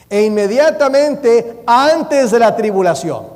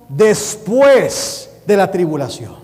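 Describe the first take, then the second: First: "antes" punched high and loud in a slow, loud reading; stress on "antes". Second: "después" drawn out slowly and punched hard; stress on "después". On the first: Retold or imitated. Preacher reading the verse as a dispensationalist does, stress on "antes". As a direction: read it slowly and loudly, leaning hard on "antes". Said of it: "lo voy a leer como lo lee el dispensacionalista".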